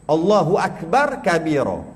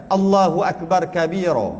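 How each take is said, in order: Both takes have the same delivery.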